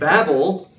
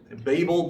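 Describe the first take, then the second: First: The first syllable sounds like babble. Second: The first syllable does not sound like babble. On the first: The speaker calls it right. "it's the word Babel because confusion and Babel, ... babbling" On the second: The speaker calls it wrong. "You might hear some people talk about the Tower of Babel"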